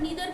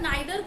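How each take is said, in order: First: The first vowel sounds like 'ee'. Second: The first vowel sounds like 'eye'. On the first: "दोनों ही pronunciation correct है" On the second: "आइदर और नाइदर को हम ईदर और नीदर भी pronounce करते हैं"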